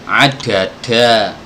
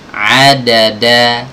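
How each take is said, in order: First: The d sounds are heavy, with a Javanese accent. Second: The d sounds are crisp, with no regional accent. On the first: The speaker calls it wrong. "membaca medok tuh ya ... ini kurang tepat ya" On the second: The speaker calls it right. "Jadi harus harus ditunaikan makhrajnya"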